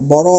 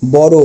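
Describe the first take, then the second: First: বড় ending in open অ, "bawraw"; wrong open ending. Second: বড় said as "boro", ending in ও; final o sound. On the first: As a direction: leave the end of বড় open, not rounded to o. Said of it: "অ বলবো না". (ভুল উচ্চারণ: শেষে খোলা অ) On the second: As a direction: round the last vowel of বড় to o. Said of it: "ও বলবো". (শেষে ও দিয়ে: বড়ো) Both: Shown as a demonstration.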